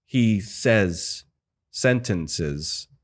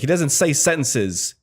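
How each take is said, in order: First: "says" and "sentences" set apart by a pause; word by word. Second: Said in the usual way. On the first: Shown as a demonstration. Mocking the ambassador's line delivery, word by word. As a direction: break it before "sentences", as a halting line read. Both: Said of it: "word by word".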